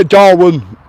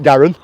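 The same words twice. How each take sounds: First: Said in the usual way. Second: "Darren" for Darwen, with the w dropped; local pronunciation. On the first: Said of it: "did your mum used to call it Darren?". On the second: Shown as a demonstration. Asking about a viewer's mum, "Darren" said the local way. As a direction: say the town as "Darren", like the first name. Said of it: "It's what we call it".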